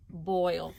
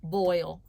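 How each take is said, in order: First: Boil said as one smooth word again; Boil, model word repeated; blended word. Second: Boil said as one smooth word; Boil, said whole after the sounds; blended word. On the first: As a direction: say Boil together with the class. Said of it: "Say the word together". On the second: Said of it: "blend the sounds together and say the word". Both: Shown as a demonstration.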